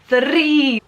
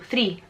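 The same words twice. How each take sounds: First: The R is rolled with several trills. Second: The R is a single quick tap. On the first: The speaker calls it wrong. "We don't pronounce that like that" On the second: The speaker calls it right. "we just tap our R"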